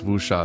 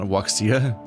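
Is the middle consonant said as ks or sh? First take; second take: sh; ks. First: The middle consonant sounds like sh. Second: The middle consonant sounds like ks. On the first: The speaker calls it right. "it's Wusha" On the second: The speaker calls it wrong. "not Wuxia"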